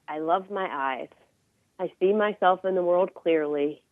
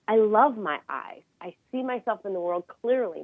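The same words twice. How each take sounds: First: It is said flatly, without much energy. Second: It is said with energy and emotion.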